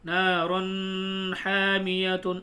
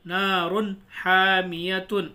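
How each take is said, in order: First: نارن حامیتن with the noon hidden in the nose, drawn out slowly; نون ناک میں چھپا کے نارن حامیتن; hidden nasal reading. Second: نارن حامیتن with the noon of نارن sounded fully and clearly; نون ظاہر کر کے نارن حامیتن; clear izhar reading. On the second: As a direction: pronounce نارن حامیتن so the n is plainly heard. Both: Shown as a demonstration. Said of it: "اگر چھپا کے پڑھنا ہوتا تو کیسے پڑھتے؟".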